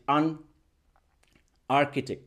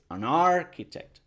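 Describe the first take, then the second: First: The two words are said separately, not joined. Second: The two words are joined smoothly together. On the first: The speaker calls it wrong. "no va a decir an architect" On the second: The speaker calls it right. "es an architect"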